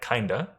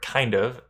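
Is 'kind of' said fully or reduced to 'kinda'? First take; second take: reduced; full. First: The words are reduced and run together. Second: Both words are pronounced fully and separately.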